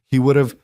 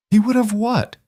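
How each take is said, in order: First: Said in the usual way. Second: Much higher, incredulous bitter demand; bitter challenge. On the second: Acted. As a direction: throw the words back at her. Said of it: "Isabella laughed bitterly".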